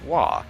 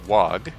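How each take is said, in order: First: The word ends on an open vowel sound. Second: The word ends with a hard g sound. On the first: "the G H is silent and pronounce it "wah."" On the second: "most people pronounce it "wog,""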